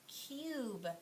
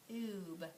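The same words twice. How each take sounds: First: The vowel sounds like 'yoo', the letter name. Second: The vowel sounds like 'oo', without a y. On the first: The speaker calls it right. "Is it just saying its name?" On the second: The speaker calls it wrong. "Let's try the other sound. Ooh"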